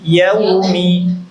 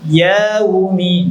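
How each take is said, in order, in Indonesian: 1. Vokal setelah y dibaca pendek. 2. Vokal setelah y dipanjangkan. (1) "tapi yaumi" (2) "Jangan yaumi; Ya-nya jangan dipanjangkan"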